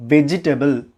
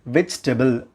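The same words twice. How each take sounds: First: வெஜிடபிள் with an extra E, ve-ji-TE-bul; mispronounced vegetable. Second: வெஜிடபிள் as three syllables, VECH-te-bul; correct vegetable. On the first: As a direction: say வெஜிடபிள் in four full syllables. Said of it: "pronounce பண்ணக்கூடாது". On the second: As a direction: drop the middle E of வெஜிடபிள்: vej-table. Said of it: "There is no E sound in between". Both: Shown as a demonstration.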